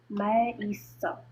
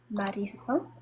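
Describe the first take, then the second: First: The voice falls at the end. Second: The voice rises at the end.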